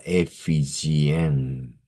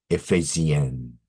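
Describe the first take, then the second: First: Ephesienne with "fi" in the second syllable; missed accent. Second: Ephesienne with "fay" in the second syllable; corrected French accent. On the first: Real, not acted. Teacher reading French title, accent overlooked. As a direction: say Ephesienne as "ay-fee-zyen". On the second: Shown as a demonstration. Teacher apologising for the missed accent, carefully corrected. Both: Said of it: "they had accent".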